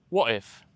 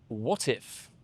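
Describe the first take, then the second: First: The T is dropped between the two words. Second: The T is pronounced and linked into 'if'. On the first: It sounds like an ordinary British person. "then you drop the T" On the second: It sounds posh, like the Queen. "you would enunciate your T and you would connect the two words together"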